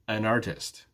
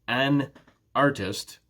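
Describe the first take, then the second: First: The two words blend together smoothly. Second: The two words are said separately. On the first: The speaker calls it right. "those two sounds will blend together" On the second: The speaker calls it wrong. "So it's not an artist"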